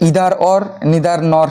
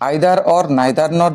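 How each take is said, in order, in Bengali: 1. প্রতিটি শব্দের প্রথম স্বরধ্বনির উচ্চারণ 'ee'-এর মতো। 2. প্রতিটি শব্দের প্রথম স্বরধ্বনির উচ্চারণ 'eye'-এর মতো।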